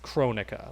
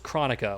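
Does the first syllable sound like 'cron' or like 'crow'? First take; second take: crow; cron. First: The first syllable sounds like 'crow'. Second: The first syllable sounds like 'chronicle'. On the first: The name comes from Kronos. The speaker calls it right. "It's Chronica, like she's Chronos" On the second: The name comes from the word chronicle. The speaker calls it wrong. "the reason I say it wrong is because I thought it was Chronica, like to chronicle"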